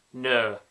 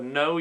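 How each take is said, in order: First: Broad northern No; Yorkshire accent. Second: Said in the usual way. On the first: Shown as a demonstration. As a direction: say No with a flat Yorkshire O. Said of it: "you would go". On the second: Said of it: "if you would say the word no".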